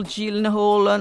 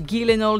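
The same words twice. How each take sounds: First: Gyllenhaal said "JILN-hol" with a soft G; unsure pronunciation, soft G. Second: Gyllenhaal said "GHEE-len-ol" with a hard G; unsure pronunciation, hard G. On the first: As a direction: try Gyllenhaal starting like "Jill". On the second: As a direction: try Gyllenhaal as three syllables, starting like "geese". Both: Real, not acted. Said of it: "non so come si pronuncia esattamente".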